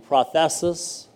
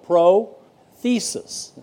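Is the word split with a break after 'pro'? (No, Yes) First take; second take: No; Yes. First: The word is said whole, without a split. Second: The word is split after 'pro' with a break. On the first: "In the Greek, it would be prothesis" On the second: "We split differently. We say pro. Thesis"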